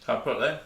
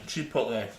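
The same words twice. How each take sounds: First: "Chipotle?" asked with a rising tune, checking; questioning rise. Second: "Chipotle." said with a firm falling tune, confirmed; settled fall. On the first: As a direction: say "Chipotle?" as an unsure question going up at the end. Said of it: "Yeah, that's what I thought". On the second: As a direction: land "Chipotle." flat and sure, falling at the end. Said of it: "That's the one". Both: Shown as a demonstration.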